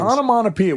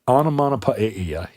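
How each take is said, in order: First: It is said with the usual English vowels. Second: It is said with a Greek-style 'ae' vowel. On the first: The speaker calls it right. "It's not. It's onomatopoeia" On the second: The speaker calls it wrong. "we don't do the the Greek. You know the ae onomatopoeia"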